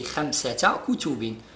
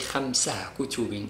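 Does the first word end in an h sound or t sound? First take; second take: t sound; h sound. First: The first word ends with a t sound. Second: The first word ends with an h sound. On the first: The speaker calls it right. "So we say" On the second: The speaker calls it wrong. "We don't say خمسة كتب. It's wrong"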